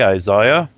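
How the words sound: It is said with a British pronunciation.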